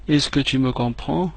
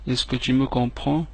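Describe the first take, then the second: No difference in how they are said.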